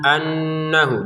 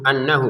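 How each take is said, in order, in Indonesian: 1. Nun yang bertasydid ditahan dengan dengung. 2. Nun yang bertasydid pendek, dengungnya sedikit. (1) "nun bertasydidnya kita dengungkan" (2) "jangan sekedar annahu annahu ya, kurang itu ya"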